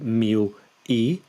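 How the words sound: A short gap separates the two words. The speaker calls it wrong. "don't leave a gap between them. Don't say mil e"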